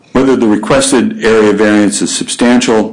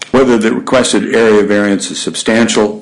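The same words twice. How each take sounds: The two takes are said the same way.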